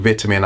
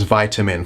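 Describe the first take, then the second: First: "vitamin" with a short i, as in "vit"; first syllable of "vitamin" rhymes with "bit"; British pronunciation. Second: "vitamin" with a long i, as in "vite"; first syllable of "vitamin" rhymes with "bite"; American pronunciation. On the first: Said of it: "what I mean is vitamin". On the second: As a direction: say "vitamin" the American way, VYE-tuh-min. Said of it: "for those of us who are American". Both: Shown as a demonstration.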